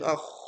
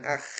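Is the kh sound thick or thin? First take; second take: thick; thin. First: The kh sound is thick and heavy. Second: The kh sound is thin and light. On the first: The speaker calls it right. "menebal akh, bukan akh, tapi akh" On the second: The speaker calls it wrong. "bukan akh"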